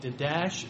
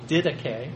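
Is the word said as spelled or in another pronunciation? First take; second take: as spelled; another pronunciation. First: The word is read the way it looks. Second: The word is said unlike its spelling suggests. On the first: The speaker calls it wrong. "it looks like Didache" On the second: The speaker calls it right. "it's Didache"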